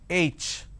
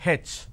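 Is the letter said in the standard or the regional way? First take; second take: standard; regional. First: The letter name has its standard pronunciation. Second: The letter name has a regional pronunciation. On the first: The speaker calls it right. "It's pronounced as" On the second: The speaker calls it wrong. "in southern part of India, everybody pronounces this letter as"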